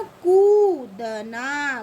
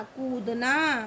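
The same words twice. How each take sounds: First: कूदना very slow and loud as koo, da, naa; syllable by syllable. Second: कूदना in one piece with a long oo; joined-up word. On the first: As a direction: split कूदना, holding the koo. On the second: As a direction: say कूदना connected, still unhurried. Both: Shown as a demonstration. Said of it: "जब हम इनको अलग-अलग pronounce करेंगे".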